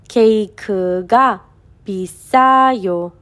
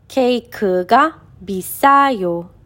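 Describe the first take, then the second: No difference in how they are said.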